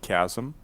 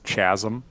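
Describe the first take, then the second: First: The word begins with a hard k sound. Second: The word begins with a ch sound. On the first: The speaker calls it right. "you one hundred percent use the right um enunciation of chasm" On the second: The speaker calls it wrong. "I thought it was chasm"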